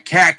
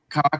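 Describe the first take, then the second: First: The vowel is a flat, open 'a'. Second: The vowel is a plain rounded 'o'. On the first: "I love making fun of the Boston accent" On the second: "if you say the word like cock"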